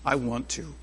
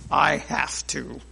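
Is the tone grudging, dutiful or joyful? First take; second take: joyful; grudging. First: It is said in a joyful tone. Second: It is said in a grudging tone.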